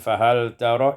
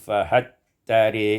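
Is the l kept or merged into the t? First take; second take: kept; merged. First: The l is pronounced and the final a is open. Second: The l merges into t and a leans toward e.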